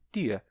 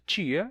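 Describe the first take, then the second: First: The t is a plain, crisp t. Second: The t is hushed, sounding like 'ch'.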